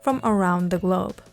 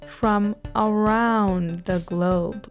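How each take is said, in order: First: The phrase is spoken at a normal pace. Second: The phrase is spoken slowly and deliberately.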